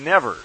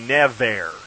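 First: No full vowel is pronounced before the final r. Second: A full vowel is pronounced before the final r. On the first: The speaker calls it right. "We say never" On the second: The speaker calls it wrong. "That second E doesn't belong there. That would be never"

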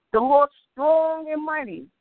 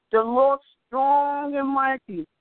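No difference in how they are said.

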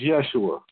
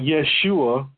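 First: The name is said in an English pronunciation. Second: The name is said in a Hebrew-style pronunciation. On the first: The speaker calls it right. "When we say it in English, it's Yeshua" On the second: The speaker calls it wrong. "It's not Yeshua"

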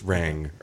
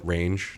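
First: The word ends with an 'ng' sound. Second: The word ends with a 'j' sound. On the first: The speaker calls it right. "You're not pronouncing the GE in that whole thing" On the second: The speaker calls it wrong. "I still call it Range"

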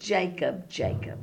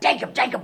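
First: It is said tenderly, as an endearment. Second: It is said as a plain wake-up call.

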